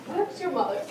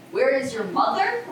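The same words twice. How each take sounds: First: Said in the usual way. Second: Indignant mimicry, rising at the end; mocking imitation. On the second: Juliet quoting the nurse's odd reply, mocking her. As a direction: parrot the question back in disbelief. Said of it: "How awfully thou repliest".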